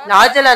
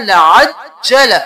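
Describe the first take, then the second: First: लाजला with a plain single ज, the wrong way; wrong reading. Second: लाजला with the ज doubled and held, slowly; correct reading. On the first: Teacher showing students the wrong reading of लाजला. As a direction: say लाजला without doubling the jeem. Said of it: "लाजला नहीं करना". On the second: Teacher showing students the correct reading of लाजला. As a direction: lean on the double jeem in लाजला. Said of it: "जीम को दो बार". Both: Shown as a demonstration.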